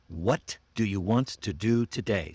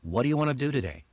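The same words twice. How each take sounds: First: WHAT DO YOU WANT TO DO TODAY, each word full and stressed; emphasis on every word. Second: Fast, linked WHAT DO YOU WANNA; naturally reduced. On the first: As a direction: give every word from What to today its own beat, unreduced. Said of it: "I put every emphasis on the words". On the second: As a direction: run What do you wanna together quickly and casually. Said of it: "Reduce it naturally". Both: Shown as a demonstration.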